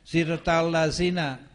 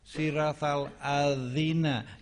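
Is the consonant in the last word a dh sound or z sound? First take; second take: z; dh. First: The last word is said with a z sound. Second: The last word is said with a dh sound. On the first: The speaker calls it wrong. "saya sering dengar ... sejak kapan siratal mustaqim menjadi siratal lazina?" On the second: The speaker calls it right. "bukan lazina, ya, hati-hati"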